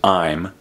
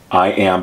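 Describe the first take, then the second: First: It is said as one short contracted syllable. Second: It is said as two full separate words.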